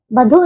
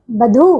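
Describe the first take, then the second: First: बधु with a short final u; wrong short ending. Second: बधु said as "badhoo"; correct long ending. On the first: Teacher showing pupils the error, बधु with short u. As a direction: clip the last vowel of बधु. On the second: Teacher correcting pupils, बधु with long oo. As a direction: hold the final oo of बधु. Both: Shown as a demonstration. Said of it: "बधु नहीं".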